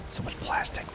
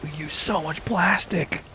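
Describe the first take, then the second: First: Hushed, voiceless whisper; whispered dismay. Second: High, slow exasperated complaint; high-pitched lament. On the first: Lamenting all the plastic, whispered. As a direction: whisper it in disbelief. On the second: Lamenting all the plastic, high drawn-out voice. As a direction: draw it out high in dismay. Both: Real, not acted.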